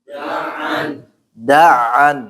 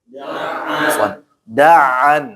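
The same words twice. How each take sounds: No difference in how they are said.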